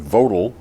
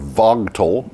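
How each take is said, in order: First: The name is pronounced differently from its spelling. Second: The name is pronounced exactly as it is spelled.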